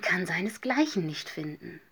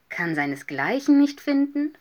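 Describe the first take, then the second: First: Said in the usual way. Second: Higher, louder incredulous echo; astonished question. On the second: A narrator's reading. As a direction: repeat it back as an amazed question. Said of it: "fragten die anderen erstaunt". (erstaunte Nachfrage)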